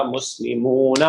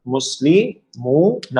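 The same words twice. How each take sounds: First: مسلمون run together as one word, "muslimoona"; joined syllables. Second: مسلمون broken up very slowly as "musli - moo - na"; sílabas separadas. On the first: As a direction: blend "moo" and "na" smoothly into مسلمون. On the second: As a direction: pull مسلمون apart, pausing before "moo" and "na". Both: Shown as a demonstration. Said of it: "میم اور واو مل جائیں گے".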